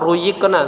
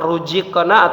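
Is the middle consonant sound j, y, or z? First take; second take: y; j. First: The middle consonant is a y sound. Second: The middle consonant is a j sound. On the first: "atau huruf ya" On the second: "huruf za jangan berubah menjadi huruf jim"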